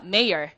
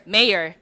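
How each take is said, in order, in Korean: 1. 미국식 발음이고, r 소리로 끝납니다. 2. 미국식 발음이고, r 소리로 끝납니다.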